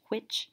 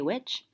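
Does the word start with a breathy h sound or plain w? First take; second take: breathy h; plain w. First: It begins with a breathy h before the w. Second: It begins with a plain w sound. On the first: "With a kind of like a aspirated H" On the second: "A lot of people would just say which"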